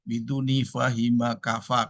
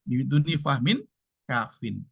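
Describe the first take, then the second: First: The phrase ends with the sounds 'fahima kafa'. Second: The phrase ends with the sounds 'fahmin kafin'. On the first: The speaker calls it wrong. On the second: The speaker calls it right.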